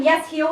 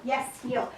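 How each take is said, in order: First: Said in the usual way. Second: Soft cue to the dog. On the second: Real, not acted. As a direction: murmur "Yes, heel" right at the pup. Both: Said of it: "So notice I'm telling him".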